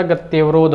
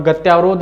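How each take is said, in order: First: गत्यवरोध with a short "ya", gat-ya-va-rodh; correct form said aloud. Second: गत्यावरोध with a long "yaa", gat-yaa-va-rodh; wrong form said aloud. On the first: Hindi teacher giving students the correct form, with a short "ya". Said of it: "होता है". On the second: Hindi teacher showing students the wrong form, with a long "yaa". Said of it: "नहीं होता". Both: Shown as a demonstration.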